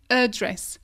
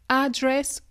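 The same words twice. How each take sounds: First: It is said in a British way. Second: It is said in an American way. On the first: "ou en Angleterre" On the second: "si tu te situes aux États-Unis"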